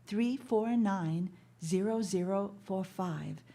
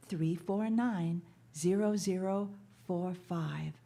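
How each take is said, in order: Both takes have the same delivery.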